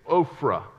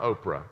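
First: The name is said with an f sound. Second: The name is said without an f sound. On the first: The speaker calls it right. "It's Ophrah" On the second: The speaker calls it wrong. "It's not Oprah"

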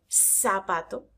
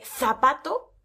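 First: The z is pronounced as an s sound. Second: The z is pronounced as a th sound.

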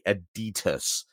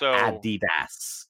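First: It is said the way Americans say it. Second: It is said the original German way. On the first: The speaker calls it wrong. "Americans would say Adidas" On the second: The speaker calls it right. "instead of Adidas"

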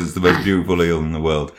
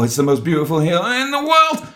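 First: It is said in an ordinary speaking voice. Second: It is said in a put-on character voice. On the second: "Not in that voice"

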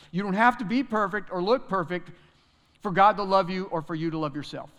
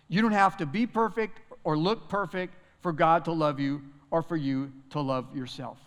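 First: The sentence is said at a quicker pace. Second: The sentence is said at a slower pace.

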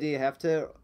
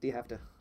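First: Each word is said slowly and clearly apart. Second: The words are said fast and squished together. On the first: "I will never in my life say" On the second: "When I can just say"

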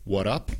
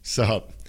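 First: The s sound is dropped from the first word. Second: It is squeezed into one short syllable. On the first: "A veces lo decimos como" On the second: "A veces simplemente como"

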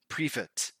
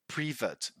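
First: The word is said like 'privet'. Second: The same.

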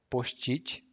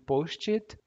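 First: The word is pronounced the Brazilian Portuguese way. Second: The word is pronounced the English way.

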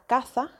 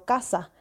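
First: The s is pronounced like a th sound. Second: The s is pronounced as a plain s sound. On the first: "un hablante ceceante dirá" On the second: "y no"

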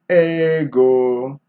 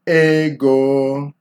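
First: The word is pitched in the middle range. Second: The word is pitched in the middle range.

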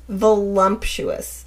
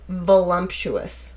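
Both takes have the same delivery.

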